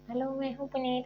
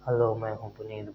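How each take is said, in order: First: It is said in a higher, thinner voice. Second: It is said in a deep voice.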